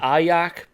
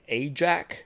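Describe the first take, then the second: First: The word is pronounced the German way. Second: The word is pronounced the American way. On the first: "I pronounce it Ayak because it's it's German pronunciation" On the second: "a lot of Americans would say Ajax"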